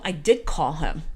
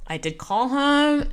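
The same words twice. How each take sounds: First: Said in the usual way. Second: "did call him" drawn out slowly, pitched higher; emphatic insistence. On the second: Shown as a demonstration. Teller insisting to viewers he called the driver, slow emphatic stress.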